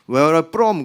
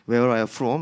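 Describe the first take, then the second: First: The f in 'from' is not clearly pronounced. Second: The f in 'from' is clearly pronounced. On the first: The speaker calls it wrong. "그러면 안 돼요. 그러면 동, 동남아 사람 되는 겁니다" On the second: The speaker calls it right. "이렇게 F 발음 유, 유념해 주세요"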